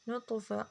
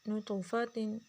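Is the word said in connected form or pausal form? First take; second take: pausal; connected. First: It is said in its pausal, stopping form. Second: It is said in its connected, continuing form. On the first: "वक़फन" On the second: "वसलन"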